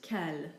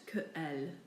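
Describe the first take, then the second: First: The two words run together as one syllable. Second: The two words are said as separate syllables. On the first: The speaker calls it right. "You simply say in one fluid um, movement" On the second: The speaker calls it wrong. "not que elle"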